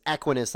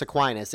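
First: Equinus said as ECK-win-us; ECK-win-us pronunciation. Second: Aquinas said as uh-KWY-nus; uh-KWY-nus pronunciation. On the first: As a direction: Equinus with stress up front on ECK. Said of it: "like a horse". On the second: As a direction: Aquinas with the stress on a long KWY. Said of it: "it's not Thomas Aquinas". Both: Shown as a demonstration.

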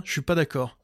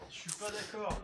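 First: Said in the usual way. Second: Faint voice away from the microphone; speaking from across the room; far from mic. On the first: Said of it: "ça y est, je suis revenu". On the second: Real, not acted. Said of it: "je me balade dans mon appart, donc on m'entend peut-être pas bien".

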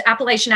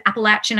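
First: "Appalachian" said as app-uh-LAY-shun; mistaken pronunciation. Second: "Appalachian" said as app-uh-LATCH-un; corrected pronunciation. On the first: Actor admitting a mispronounced accent name, "Appalachian" as app-uh-LAY-shun. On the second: Actor correcting themself for listeners, "Appalachian" as app-uh-LATCH-un. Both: Shown as a demonstration. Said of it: "I think you're supposed to say".

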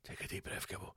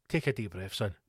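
First: Barely voiced whisper; whispered self-calming. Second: Low, soft self-soothing; calming himself. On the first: Angry ranter tells himself to breathe, whispered self-calming. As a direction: whisper it to yourself to cool down. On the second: Angry ranter tells himself to breathe, calming himself. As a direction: talk yourself down, low and quiet. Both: Real, not acted. I'm getting angry, Gibbo.

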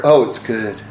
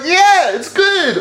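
First: Hear faint praise as a blow; deflated. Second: "Yeah, it's good" said high and bright, delighted; pleased. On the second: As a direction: react like you just got praised. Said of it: "you're either like". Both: Retold or imitated.

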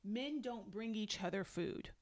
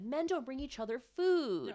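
First: Softer, deliberate repeat of the quote; verbatim quote. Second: Higher-pitched, indignant quote; mock indignant. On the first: Retold or imitated. Repeating husband's line for emphasis, deliberate and understated. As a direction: restate it evenly, word by word. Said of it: "He literally says". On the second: Retelling husband's retort to his wife, mock indignant. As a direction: protest it, leaning on "food".

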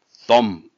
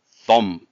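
No difference in how they are said.

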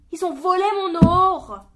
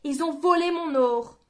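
First: Loud high broken cry; voice cracking with spite. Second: Bitter repeat. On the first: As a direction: let the voice crack with rage. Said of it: "sa voix déraillée de dépit". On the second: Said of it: "répéta-t-il". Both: A narrator's reading.

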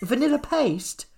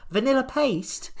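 First: High, slow disbelieving repeat; incredulous. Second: Incredulous. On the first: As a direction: drag out the disbelief. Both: Real, not acted. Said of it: "incredulous repeat".

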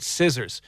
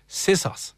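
First: Said in the usual way. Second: "scissors" as "sissas", no R; mispronounced scissors. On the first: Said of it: "can't say the word scissors". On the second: Retold or imitated. Host imitates listener's friend, "scissors" said as "sissas". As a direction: say "scissors" with hissed S's and an "ah" ending. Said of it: "She can't say the or sound".

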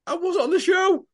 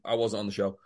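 First: Very high-pitched mimicked excuse; mock protesting excuse. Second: Low, softer imitation of an excuse; deadpan quoted excuse. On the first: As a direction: squeak it out as a put-on protest. Mimicking everyone's excuse on the street. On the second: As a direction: drop the pitch for a mock denial. Quoting Lynn's same excuse, deadpan.

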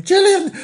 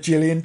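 First: Very high, loud echo of the name; high mock squeal. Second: Said in the usual way. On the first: Reader echoing Gillian's name, high mock squeal. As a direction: squeal the name as a silly interjection.

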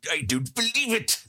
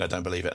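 First: Victor Meldrew impression. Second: Roy Hodgson impression. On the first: Host mimics the sitcom grump for a fan's picture, badly. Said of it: "picture of Victor Meldrew with". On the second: Host offers a better impression as a football manager, lightly voiced. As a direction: mumble it like a tired old football manager. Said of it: "it would be Roy Hodgson saying".

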